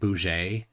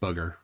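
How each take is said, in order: First: The word is said with a French-like accent. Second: The word is said with a plain English accent. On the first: "it would be pronounced with some sort of a French type uh, accent" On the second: "in my head, it's just booger"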